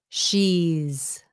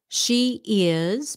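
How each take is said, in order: First: The words are run together as one contraction. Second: The two words are said in full. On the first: "becomes she's" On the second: "She is becomes"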